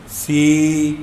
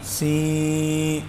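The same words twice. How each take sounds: First: سی with a clear ee and no nasality; correct see. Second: سی pushed through the nose; nasal see. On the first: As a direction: say سی clear, not through the nose. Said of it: "صحیح ہو جائے گی". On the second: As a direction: let سی go into the nose, the wrong way. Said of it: "آواز ناک میں جا رہی ہے". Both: Shown as a demonstration.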